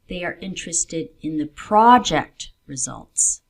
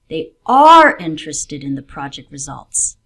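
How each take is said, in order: First: The word 'project' carries extra stress. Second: The word 'interested' carries extra stress. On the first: It is these results, not other results, that matter. "there are other results they are looking at" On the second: They really do want to know the outcome. "they do want to know what happens in the project"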